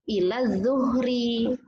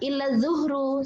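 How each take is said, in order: First: The last word ends with an i vowel. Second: The last word ends with a u vowel. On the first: The speaker calls it right. "setelah lafaz ila itu harus dikasroh" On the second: The speaker calls it wrong. "salah, otomatis itu salah"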